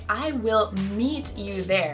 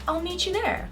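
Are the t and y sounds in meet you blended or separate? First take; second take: separate; blended. First: The t and y sounds stay separate. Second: The t and y blend into ch. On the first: The speaker calls it wrong. "I wouldn't say" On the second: The speaker calls it right. "I would say"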